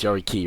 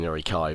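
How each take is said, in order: First: The last syllable sounds like 'key'. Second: The last syllable sounds like 'kai'. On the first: The speaker calls it right. "it's Yari Ki rather than Yari Kai" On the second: The speaker calls it wrong. "I always end up calling them Yari Kai"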